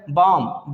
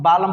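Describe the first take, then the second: First: बाम in one syllable, no L; silent L. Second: बालम in two syllables with L; wrong sounded L. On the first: Teacher models the correct word, बाम with silent L. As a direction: say बाम leaving L out. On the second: Teacher quoting wrong readers, बालम with L. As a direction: pronounce the L in बालम. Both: Shown as a demonstration. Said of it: "जो कि गलत sound है".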